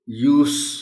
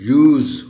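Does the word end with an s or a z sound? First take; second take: s; z. First: The word ends with an s sound. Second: The word ends with a z sound. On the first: It is a noun. "सीन की आवाज आएगी" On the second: It is a verb. "की आवाज आएगी"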